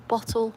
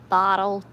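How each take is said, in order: First: Said in the usual way. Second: Loud, badly faked American "Bottle"; attempted American accent. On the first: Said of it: "We say it the proper way". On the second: Shown as a demonstration. Mocking American words to viewers, terrible American accent. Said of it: "I can't do the American accent".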